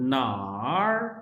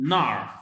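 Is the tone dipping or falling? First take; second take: dipping; falling. First: The word has a low dipping tone. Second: The word has a sharp falling tone. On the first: It asks where. "ये third tone के साथ है" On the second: It means there. "That is with the fourth tone"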